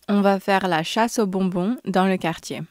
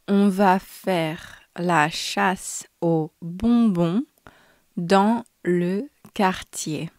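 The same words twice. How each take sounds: First: The sentence is spoken at normal speed. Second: The sentence is spoken slowly. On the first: "twice at normal speed" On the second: "once slowly"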